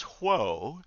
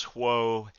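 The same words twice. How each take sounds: First: Half-hearted mock yell, higher, dipping then rising; retold yell. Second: Said in the usual way. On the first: Minister riding up to his congregation, mock yell. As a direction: imitate a rider's halt call, lightly. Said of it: "he yells". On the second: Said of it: "as soon as he yells".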